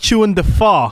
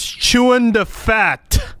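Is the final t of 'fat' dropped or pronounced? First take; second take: dropped; pronounced. First: The final t of 'fat' is dropped. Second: The final t of 'fat' is clearly pronounced. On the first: The speaker calls it wrong. "That's because you pronounced it wrong" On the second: The speaker calls it right. "It's chewing the fat"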